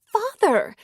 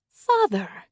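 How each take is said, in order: First: High, loud breathy gasp of "Father!"; shocked gasp. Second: Exclaimed. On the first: Shocked woman gasping at the former priest's confession. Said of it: "She gasped". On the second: She exclaims at the priest. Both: Acted.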